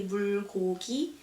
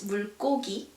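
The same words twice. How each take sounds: First: The wrong 물고기, its G not strengthened; unhardened second consonant. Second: 물고기 with a strong, tense G, as 물꼬기; 물고기 said with its middle G strengthened; hardened second consonant. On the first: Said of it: "We don't say 물고기". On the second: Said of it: "following consonant are pronounced a bit more stronger". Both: Shown as a demonstration.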